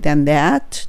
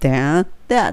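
First: The two words are linked together. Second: The two words are said separately. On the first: The speaker calls it right. "とつなげるがコツになります" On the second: The speaker calls it wrong. "じゃなくて"

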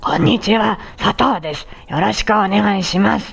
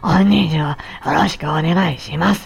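First: The voice is rough and gravelly. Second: The voice is both breathy and gravelly.

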